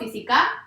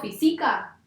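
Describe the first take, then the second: First: The stress falls on the last syllable. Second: The stress falls on the middle syllable. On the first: "no, aguda no va a ser" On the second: "tampoco va a ser grave"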